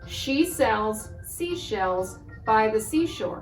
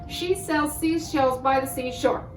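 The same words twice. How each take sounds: First: It is said at a slower pace. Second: It is said at a faster pace.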